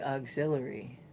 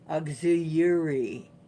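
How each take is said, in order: First: The double L sounds like an l. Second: The double L sounds like a y. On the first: The speaker is American. "Americans say auxiliary" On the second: The speaker is from Canada. "anything with two L's in it was a y sound"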